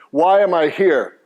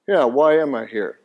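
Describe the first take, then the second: First: Said in the usual way. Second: A listener's droll, doubting Why am I here; mock weary question. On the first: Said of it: "We're gonna start with chapter one". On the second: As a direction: lightly imitate a bored skeptic asking "why am I here?". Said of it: "it sounds like you're saying".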